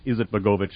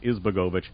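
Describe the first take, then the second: First: The name is said with every syllable. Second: The name is said with one syllable missing. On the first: The speaker calls it right. "It's Izetbegovic" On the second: The speaker calls it wrong. "I left out a syllable"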